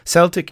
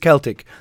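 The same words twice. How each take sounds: First: The word begins with a soft s sound. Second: The word begins with a hard k sound. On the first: The word names the football team. "Celtic is the football team" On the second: The word refers to the ancient Celts. "The word is Celtic, the Celts"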